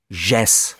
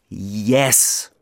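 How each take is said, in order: First: The word begins with a 'j' sound. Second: The word begins with a 'y' sound. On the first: The speaker calls it wrong. "sie Jess" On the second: The speaker calls it right. "das heißt Yes"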